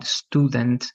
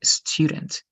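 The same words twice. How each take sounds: First: "Student" as STOO-dent, with a Spanish U; plain oo in "Student", no y-glide. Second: "student" as STYOO-dent, with a y-glide; English U. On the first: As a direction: say "Student" with a pure oo vowel. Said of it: "like the Spanish". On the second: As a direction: say "student" with a yoo sound, not oo. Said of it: "But you have to say". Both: Shown as a demonstration.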